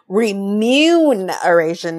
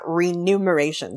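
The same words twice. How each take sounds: First: The m sound comes before the n. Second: The n sound comes before the m. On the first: The speaker calls it right. "It's remuneration" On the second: The speaker calls it wrong. "not remuneration"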